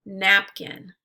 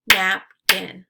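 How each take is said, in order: First: Said in the usual way. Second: "Napkin" as two separate beats, Nap – kin; syllables split apart. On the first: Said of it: "repeat the word". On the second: Shown as a demonstration. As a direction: say "Napkin" syllable by syllable, pausing between. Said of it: "break it into the syllables".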